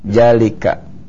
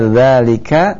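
First: The word begins with a 'j' sound. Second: The word begins with a soft 'th' sound. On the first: The speaker calls it wrong. "tapi dia baca jalika ya" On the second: The speaker calls it right. "Harusnya dzalika"

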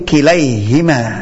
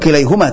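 First: The vowel after h is i. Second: The vowel after h is u. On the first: The speaker calls it right. "tapi kilaihima dibaca" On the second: The speaker calls it wrong. "ini bukan kilaihuma"

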